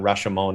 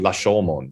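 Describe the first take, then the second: First: The word begins with an English R sound. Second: The word begins with an L-like sound. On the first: "people just say Ra- Rashomon is fine" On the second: "it's actually Lashomon"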